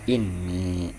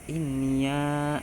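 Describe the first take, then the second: First: The word ends without a voweled 'ya' syllable. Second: The word ends with a voweled 'ya' syllable. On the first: This is the reading of the other reciters. "tetap ya sukun seperti itu" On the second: This is the reading of three reciters. "memfathahkan ya. Jadi sianya tuh hidup"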